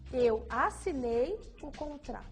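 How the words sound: The word assinei is emphasized. "depois assinei"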